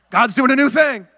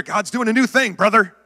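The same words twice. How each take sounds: First: Churchy proclamation. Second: Churchy talk. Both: Retold or imitated. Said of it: "that's how you talk in church".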